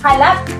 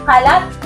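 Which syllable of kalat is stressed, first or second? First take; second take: second; second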